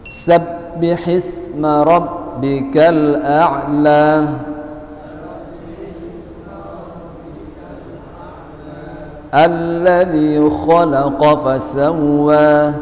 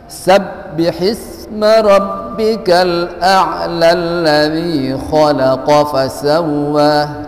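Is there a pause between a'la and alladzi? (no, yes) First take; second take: yes; no. First: A stop comes after a'la before alladzi. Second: A'la runs straight into alladzi without stopping. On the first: Each verse is read separately. "karena kita baca satu ayat per ayat, maka dibaca alladzi" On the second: The verses are read continuously. "kalau dilanjutkan"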